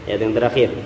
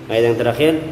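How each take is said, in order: No difference in how they are said.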